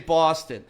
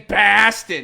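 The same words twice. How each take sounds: First: It is said in a Boston accent. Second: It is said in a standard American accent. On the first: The speaker calls it wrong. "You don't say Boston" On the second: The speaker calls it right. "you say Boston"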